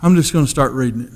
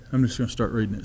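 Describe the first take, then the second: First: Said in the usual way. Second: Much softer, lower echo of the line; quiet inward resolve; softer repeat. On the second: Retold or imitated. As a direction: say it again almost to yourself. Repeating the decision to himself.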